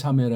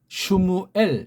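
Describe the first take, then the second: First: The name begins with a 'sa' sound. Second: The name begins with a 'shm' sound. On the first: The speaker calls it wrong. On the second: The speaker calls it right.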